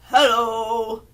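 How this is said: It is said in a low voice.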